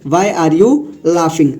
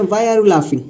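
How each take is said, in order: First: "Why are you laughing?" said very slowly, word by word; slow teaching read. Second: Said in the usual way. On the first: Shown as a demonstration. Teacher repeating the sentence slowly for the class. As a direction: drag it out so learners catch every word.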